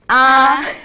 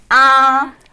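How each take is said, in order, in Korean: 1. 음이 높고 평평하게 유지됩니다. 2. 음이 높고 평평하게 유지됩니다.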